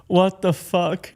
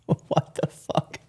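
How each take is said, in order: First: Disbelieving exclamation. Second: Stunned whisper. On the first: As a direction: let the disbelief burst out. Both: Real, not acted. Stunned reaction to clip.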